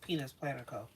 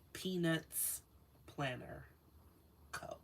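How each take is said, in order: First: The name is said quickly, run together. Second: The name is said slowly, each word enunciated. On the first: The speaker calls it wrong. "it always sounds like something else when I just say it fast" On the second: The speaker calls it right. "Let me take my time to pronounce that"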